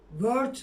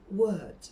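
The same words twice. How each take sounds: First: "Word" as Turkish "vört"; wrong word, r sounded. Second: "Word." as "wöd", silent r; correct word. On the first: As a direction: say "Word" with v, hard r and final t. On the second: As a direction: round into "Word." with w and no r. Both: Shown as a demonstration. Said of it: "Word değil yani".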